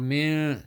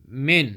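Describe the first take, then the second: First: The final n sound is held long. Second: The final n sound is kept short. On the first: The speaker calls it wrong. "don't hold on min, that's wrong. Don't say min" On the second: The speaker calls it right. "Min without holding"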